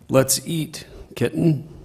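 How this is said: There is a pause before 'kitten'.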